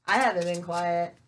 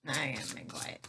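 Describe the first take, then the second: First: Louder, firm statement; emphatic denial. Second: Whispered repeat, low and hushed; playful whisper. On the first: Real, not acted. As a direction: say it out loud, plainly audible. Joking about not being quiet. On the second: Pretend. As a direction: drop to a joking whisper. Same line repeated, jokingly quiet.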